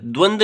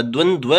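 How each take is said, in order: First: द्वंद ending on a simple d; single dva. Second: द्वंद्व with a second dv at the end; final dv cluster. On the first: Teacher showing the faulty form, द्वंद without final v. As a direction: say द्वंद as "dvand". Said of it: "द्वंद नहीं होता". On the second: Teacher giving the correct form, द्वंद्व with final dv. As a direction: say द्वंद्व as "dvan-dve". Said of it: "होता है". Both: Shown as a demonstration.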